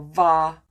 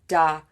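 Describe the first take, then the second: First: The word starts with a v sound. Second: The word starts with a d sound. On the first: "or va" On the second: "People are saying da"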